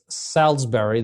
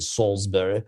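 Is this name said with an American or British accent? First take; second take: American; British. First: It is said with an American accent. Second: It is said with a British accent.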